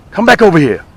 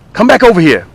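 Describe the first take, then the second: No difference in how they are said.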